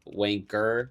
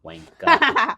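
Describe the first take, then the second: First: WANKER drawn out slowly with a hard final R; hard American R. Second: WANKER slow, ending in an open "uh"; British dropped R. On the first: Explaining American accents, WANKER with a hard final R. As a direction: end WANKER on a strong American "er". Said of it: "Americans are real hard R with everything". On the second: Showing how Brits talk, WANKER ending without R. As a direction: stretch WANKER out and drop the final R. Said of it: "Brits and Australians". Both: Shown as a demonstration.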